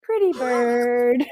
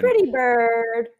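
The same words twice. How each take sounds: First: Slower, drawn-out parrot call. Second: Slow parrot squawk. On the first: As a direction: stretch it like a squawking bird. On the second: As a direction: draw out pretty bird like a parrot. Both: Retold or imitated. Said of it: "The gas man".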